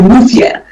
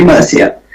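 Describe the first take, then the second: First: Murcia with a lisped th for the c; Spanish pronunciation. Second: Murcia with an s sound for the c; British pronunciation. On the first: Podcast guest showing listeners how the Spanish say it, Murcia with a th. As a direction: say Murcia the Spanish way, as MUR-thia. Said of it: "the Spanish actually pronounce it". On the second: Podcast guest showing how Brits say it, Murcia with a plain s. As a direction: say Murcia the British way, as MUR-sia. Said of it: "the Brits will say Murcia". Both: Shown as a demonstration.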